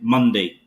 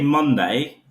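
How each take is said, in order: First: It is said in a lower, less confident voice. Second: It is said in a higher, more confident voice. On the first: This is how a family member says it. "just with a lower voice on the second attempt" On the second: This is how the speaker says it. "I say Monday"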